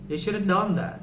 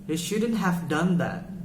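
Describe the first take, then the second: First: The words are shortened and run together quickly. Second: Every word is said fully and separately. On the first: "but they would say" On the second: "people wouldn't wouldn't say"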